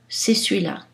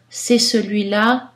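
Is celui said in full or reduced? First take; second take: reduced; full. First: Celui is reduced, with a sound dropped. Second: Celui is said in full with its vowel. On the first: This is a casual, conversational pronunciation. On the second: This is a neutral pronunciation.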